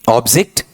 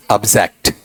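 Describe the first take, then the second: First: "ऑब्जेक्ट" as OB-zikt; noun pronunciation. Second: "ऑब्जेक्ट" as ub-ZEKT; weak first vowel, full zekt in "ऑब्जेक्ट"; verb pronunciation. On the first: Teacher quizzing without looking, noun pronunciation. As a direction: open ob and short i in "ऑब्जेक्ट". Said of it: "ओबीजेईसीटी noun का उच्चारण". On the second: Teacher contrasting it with the noun, verb pronunciation. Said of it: "और verb में". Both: Shown as a demonstration.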